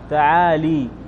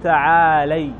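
First: The L is followed by an 'i' vowel. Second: The L is followed by an 'a' vowel. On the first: The speaker calls it wrong. "لا تقول تعالي، خطأ" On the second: The speaker calls it right. "تقول تعالي"

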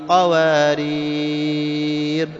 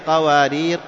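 First: The long vowel before the end is held longest. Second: The long vowel before the end is held briefly. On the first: "ثنتين أو أربع أو ست" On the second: "لك أنت تمدها حركتين"

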